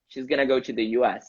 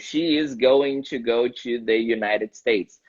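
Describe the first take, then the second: First: It is fast, with the words run together. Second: Each word is said slowly and separately.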